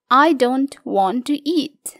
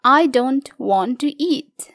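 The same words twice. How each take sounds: First: Whispered. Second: Said in the usual way. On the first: Shown as a demonstration. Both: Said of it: "Kata do not bisa diubah menjadi don't".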